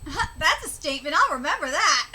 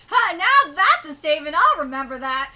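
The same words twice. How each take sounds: First: Said in the usual way. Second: "now" pushed out louder as the re-read; stress on now. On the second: Shown as a demonstration. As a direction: hit "now" to fix the reading. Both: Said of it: "let me read that again".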